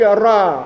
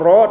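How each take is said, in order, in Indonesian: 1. Vokalnya di antara o dan a. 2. Vokalnya o penuh dan bulat. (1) "antara o dan a ... tapi ra" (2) "bukan ro"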